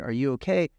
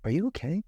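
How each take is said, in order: First: Said in the usual way. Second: Unsure, worried "Are you okay?" with a slight lift; worried question. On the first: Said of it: "but instead of saying". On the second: Shown as a demonstration. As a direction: ask "Are you okay?" unsure and anxious, as if afraid of the answer. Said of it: "Now watch my face".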